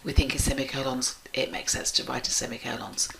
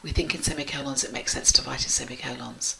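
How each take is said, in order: First: There is a short pause between clauses. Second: It runs on fast with no pause.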